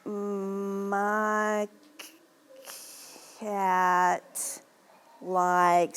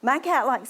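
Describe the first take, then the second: First: The words are broken up by pauses. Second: The words flow smoothly without breaks. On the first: The reader is not yet fluent. The speaker calls it wrong. "without fluency" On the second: The reader is fluent. The speaker calls it right. "with relative speed"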